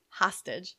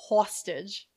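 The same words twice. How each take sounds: First: Said in the usual way. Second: "hostage" with an aw first vowel, like sausage; dad's mispronunciation. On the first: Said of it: "My dad can't say hostage". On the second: Retold or imitated. Child showing how dad says "hostage", with an aw vowel. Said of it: "He says hostage".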